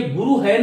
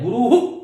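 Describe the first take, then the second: First: गुरु है said as two words with a full "hai"; गुरु है, the wrong way; wrong visarga. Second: गुरुः said "guruhu", echoing the u after the h; गुरुः with a light "hu" echo; correct visarga. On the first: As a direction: mimic the mistaken "guru hai". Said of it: "नहीं है". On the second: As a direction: end गुरुः with a short "hu". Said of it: "उच्चारण कीजिएगा". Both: Shown as a demonstration.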